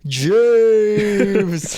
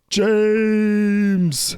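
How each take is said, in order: First: High loud call of the name, redone; shouting a name on request. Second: High loud mock call of a name; imitating a shout. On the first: Shown as a demonstration. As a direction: shout the name again as asked. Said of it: "Can you do it for me?". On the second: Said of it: "Is that how I said it?".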